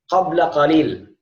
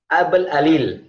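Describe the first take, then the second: First: The Q sounds are said as deep Qs. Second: The Q sounds become glottal stops, Egyptian style.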